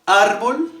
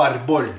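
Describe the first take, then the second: First: ÁR-bol, first syllable punched high and loud; stress on the first syllable of árbol. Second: Ar-BOL, weight thrown onto the final syllable; stress on the last syllable of árbol. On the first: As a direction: hit the opening "ár" of "árbol" hard, higher and louder. (árbol con la fuerza en la primera sílaba, ÁR-bol) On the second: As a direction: say "árbol" wrongly as ar-BOL, leaning on "bol". (árbol con la fuerza en la última sílaba, ar-BOL) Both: Shown as a demonstration. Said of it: "de ese sonito que yo les hacía".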